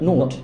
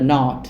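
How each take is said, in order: First: The vowel is a rounded 'o' sound. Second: The vowel is an open, unrounded 'ah' sound. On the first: "ব্রিটিশরা বলে নোট" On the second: "আমেরিকানরা বলে নট"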